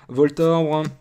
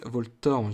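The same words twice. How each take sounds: First: Voltorb said loud and high, vɔltɔbʀ with the r moved to the end; old childhood pronunciation. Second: Voltorb said vɔltɔʀb, r before the b, level voice; current pronunciation. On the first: Card opener recalls his childhood way, Voltorb said vɔltɔbʀ. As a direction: Voltorb as he said it as a kid, ending in -tobr. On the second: Card opener corrects himself, Voltorb said vɔltɔʀb. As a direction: Voltorb the normal way, ending in -torb. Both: Shown as a demonstration. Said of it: "je disais Voltorb avant quand j'étais jeune".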